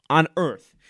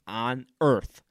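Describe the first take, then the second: First: "On earth" punched, much louder; louder emphatic echo. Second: Said in the usual way. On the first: Shown as a demonstration. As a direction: slam "On earth" as a repeat.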